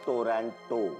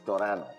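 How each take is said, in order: First: The second t is clearly pronounced. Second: The second t is dropped entirely. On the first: The speaker calls it wrong. "It's not टोरंटो" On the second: The speaker calls it right. "टी silent है।"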